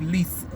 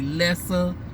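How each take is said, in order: First: The first syllable sounds like 'lee'. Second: The first syllable sounds like 'less'. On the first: The speaker calls it right. "but it's supposed to be Lisa" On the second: The speaker calls it wrong. "That's why I always want to say Lessa"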